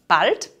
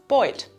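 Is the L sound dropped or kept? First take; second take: kept; dropped. First: The L is clearly pronounced after the vowel. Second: The L is replaced by an oi vowel. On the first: "wird zu" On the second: "wird zu"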